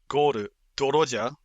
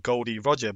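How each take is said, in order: First: The D is said as the syllable do. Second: The D is said as the letter name. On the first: "if you actually make it Goru, Doroja" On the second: "if you look at Roger's name as well"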